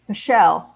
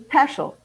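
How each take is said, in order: First: The name is pronounced the English way. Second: The name is pronounced the German way, rhyming with Heschel. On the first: The family avoided sounding too German. "anglicized by my family to be pronounced Peschel" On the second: It is the original family pronunciation. "the authentic way to pronounce my name would be Peschel"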